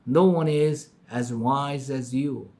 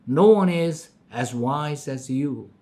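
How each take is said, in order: Both takes have the same delivery.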